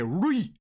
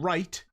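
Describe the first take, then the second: First: "rui" said as "roy-ee" with the final T dropped; North Dublin pronunciation. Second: Said in the usual way. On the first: Shown as a demonstration. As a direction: say "rui" for right, no T at the end. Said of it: "they say". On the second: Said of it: "instead of saying right".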